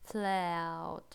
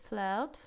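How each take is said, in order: First: The word is drawn out slowly. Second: The word is said quickly. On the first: "если замедлить немножко, замедленную съемку такую сделать" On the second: "Но теперь скажем быстро"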